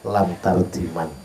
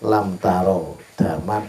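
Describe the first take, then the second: First: The last words are run together as one. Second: It is read as three separate words. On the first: The speaker calls it wrong. "dibaca lam tardiman" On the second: The speaker calls it right. "ada orang baca lam taro daman"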